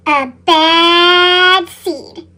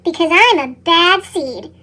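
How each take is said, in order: First: Very slow, heavy and ominous; a slow, brooding repeat; dramatic slow echo. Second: Said in the usual way. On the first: A narrator's reading. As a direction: drag each word out darkly.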